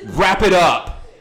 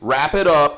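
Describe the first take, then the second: First: It is read in a harsh, nasty tone. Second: It is read in a plain, neutral tone.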